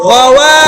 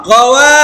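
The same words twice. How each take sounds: The two takes are said the same way.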